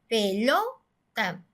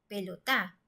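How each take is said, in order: First: The stress falls on the second-to-last syllable. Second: The stress falls on the last syllable. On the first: The speaker calls it right. "la sílaba fuerte, estuviera en la penúltima sílaba" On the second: The speaker calls it wrong. "la sílaba tónica ... estuviera en la última sílaba"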